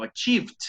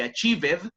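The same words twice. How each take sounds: First: "achieved" in two syllables, ending almost in T; silent E in ACHIEVED. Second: "achieved" as three syllables, "a-chee-ved"; wrong extra syllable in ACHIEVED. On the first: Teacher correcting the ending for students, "achieved" without sounded E. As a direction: drop the E, say "a-cheevt" for "achieved". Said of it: "Tiene como una prácticamente T al final". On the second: Teacher showing what not to say, "achieved" with sounded -ed. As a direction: pronounce the E of the ending in "achieved". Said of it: "no se dice achieved". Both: Shown as a demonstration.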